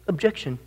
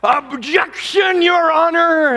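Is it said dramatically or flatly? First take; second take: flatly; dramatically. First: It is said in a flat, offhand way. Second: It is said in a loud, dramatic way.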